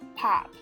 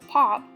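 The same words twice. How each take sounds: First: The vowel is a short A sound. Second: The vowel is a short O sound. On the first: "the short O becoming a short A" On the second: "instead of pop"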